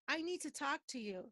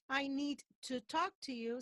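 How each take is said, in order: First: The word 'to' is quick with a schwa vowel. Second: The word 'to' has a full, clear vowel. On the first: The speaker calls it right. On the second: The speaker calls it wrong. "So please don't say"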